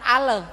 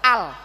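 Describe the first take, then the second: First: An extra vowel sound follows the L. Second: The syllable ends cleanly on the L. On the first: The speaker calls it wrong. "bukan ale" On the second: The speaker calls it right. "tapi al"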